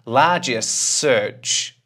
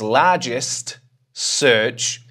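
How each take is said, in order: First: The t at the end of largest is dropped. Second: The t at the end of largest is pronounced. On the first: The speaker calls it right. "if I take the t away" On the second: The speaker calls it wrong. "largest search is a bit too much for the mouth"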